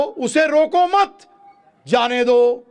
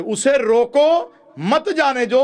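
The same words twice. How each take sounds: First: Slow, high, loud "रोको मत", clear break, then "जाने दो"; pause after मत. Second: Slow, high "रोको", break, then "मत जाने दो" as one phrase; pause after रोको. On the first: ("रोको मत" साथ में, विराम, फिर "जाने दो") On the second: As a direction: hit "रोको" hard and stop before "मत". ("रोको" पर रुककर "मत जाने दो") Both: Shown as a demonstration. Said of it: "बिल्कुल विपरीत अर्थ".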